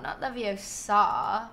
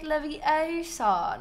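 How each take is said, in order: First: Leviosa with the weight on a drawn-out final SA; stress on SA. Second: Leviosa with a long, high O in the middle; stress on O. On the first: Streamer showing the wrong way, Leviosa stressed on the SA. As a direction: land hard on the last syllable of Leviosa. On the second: Streamer quoting Hermione's correction, Leviosa stressed on the O. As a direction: lift and stretch the O of Leviosa. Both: Shown as a demonstration.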